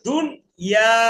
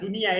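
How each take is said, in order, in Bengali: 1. "dun" এর পরে শব্দটি দুই ভাগে ভাগ হয়। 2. অংশগুলো একসাথে, মাঝে কোনো বিরতি নেই। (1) "দুন আলাদা" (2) "এটা এইভাবে বলা যাবে না"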